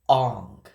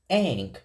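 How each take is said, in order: First: The vowel sounds like the 'o' in 'on'. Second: The vowel sounds like the 'a' in 'an'. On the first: This is how the film said the name. The speaker calls it wrong. "They called him Ong" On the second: This is how fans know the name is said. The speaker calls it right. "we all know it's pronounced Aang"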